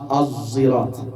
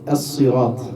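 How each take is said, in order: First: It starts with a sound between z and s. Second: It starts with a plain s sound. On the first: "Az es entre la zain y la sad" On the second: "lee as-sirat"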